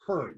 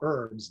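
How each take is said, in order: First: It is said the Canadian way. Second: It is said the American way. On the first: "Canadians call ... they call herbs" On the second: "what we call herbs"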